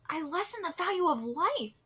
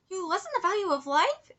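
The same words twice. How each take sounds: First: Said in the usual way. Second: "You lessened the value of life?" rising at the end; questioning echo. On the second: Acted. Other character echoes it in disbelief.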